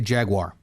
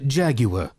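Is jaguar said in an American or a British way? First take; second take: American; British. First: The word is said the American way. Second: The word is said the British way. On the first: "I say jaguar" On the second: "you can be British and say jaguar"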